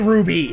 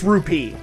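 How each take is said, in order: First: The middle consonant is a soft B sound. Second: The middle consonant is a crisp P sound. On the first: The speaker calls it wrong. "I say ruby" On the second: The speaker calls it right. "it's rupee"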